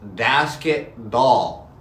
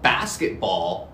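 First: The b sounds come out like d sounds. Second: The word begins with a normal b sound. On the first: "So it's like dasket doll" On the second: "instead of saying basketball"

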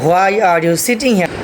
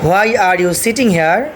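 No difference in how they are said.

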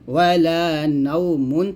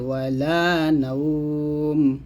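First: The word ends with an un sound after m. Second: The word ends directly on the m sound. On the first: The recitation continues without stopping. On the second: The recitation stops at this word.

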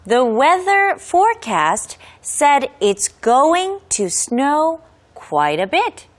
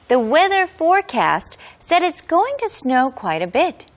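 First: The sentence is spoken at a slower pace. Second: The sentence is spoken at a faster pace.

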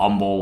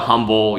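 First: The word begins without any H sound. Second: The word begins with an audible H sound. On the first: "people call it Humble without the H" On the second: "I call it Humble"

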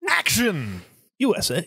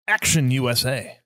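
First: It is said loudly with lots of energy. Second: It is said flatly with little energy. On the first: The speaker calls it right. "There we go" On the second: The speaker calls it wrong. "There wasn't much action behind that"

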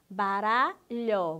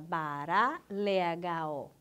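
First: The 'lh' is said as one single sound. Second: The 'l' and 'h' are said as separate sounds. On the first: The speaker calls it right. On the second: The speaker calls it wrong.

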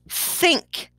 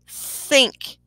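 First: The word begins with a th sound. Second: The word begins with a th sound.

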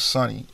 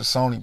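First: The first vowel is a short 'uh' sound. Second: The first vowel is a long 'oh' sound. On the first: This is the pronunciation the speaker believes is correct. The speaker calls it right. "but I believe it's Sonny" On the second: This is how some other people say the name. The speaker calls it wrong. "Some pronounce it Sony"

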